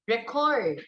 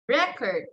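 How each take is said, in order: First: The stress is on the second syllable. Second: The stress is on the first syllable. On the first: It is used as a verb. "so the stress there is on the second syllable" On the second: It is used as a noun. "In noun, the stress there is on the first syllable"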